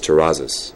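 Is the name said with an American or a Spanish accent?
American. The name is said with English sounds, plain R. "it got more Americanized"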